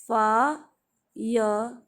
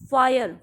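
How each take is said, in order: First: फायर stretched out, said very slowly; slow model word. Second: फायर with a p, said as payar; wrong p sound. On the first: Teacher slowly models the word for students. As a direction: draw फायर out slowly, syllable by syllable. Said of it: "कैसे बोलोगे आप इसके". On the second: Teacher shows students the wrong p. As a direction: start फायर with a plain p sound. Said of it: "फायर नहीं बोलोगे आप". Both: Shown as a demonstration.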